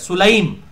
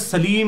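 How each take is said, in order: First: The name is pronounced Sulaym, with a u and ay. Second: The name is pronounced Salim, with an a and ee. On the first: This is the original form of the name. "ये उम्मे सुलैम लफ्ज है" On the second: This is how it is commonly said in Urdu. "हम उम्मे सलीम कहते हैं उर्दू में"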